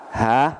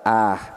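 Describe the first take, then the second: First: The sound begins with a breathy h. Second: The sound begins with a glottal stop. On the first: "Kalau dalam riwayat Al-Imam Al-Bukhari pakai ha" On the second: "kalau dalam riwayat yang lain itu pakai hamzah"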